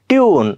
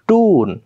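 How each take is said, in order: First: A y sound comes before the vowel. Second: No y sound comes before the vowel. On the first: "British लोक काय म्हणणार" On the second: "American म्हणणार टून"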